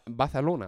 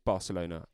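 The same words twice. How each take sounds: First: It is said in a Spanish accent. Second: It is said in a plain English accent.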